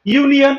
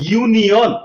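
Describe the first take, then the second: First: Said in the usual way. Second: ইউনিয়ন in careful parts, "ইউ নি অন"; "yu" demonstration. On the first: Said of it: "ইউনিয়ন আমরা পেয়ে গেলাম". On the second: Shown as a demonstration. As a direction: model ইউনিয়ন slightly spaced out with a clear "yu". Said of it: "ইউ উচ্চারণটা এখানে আসলো".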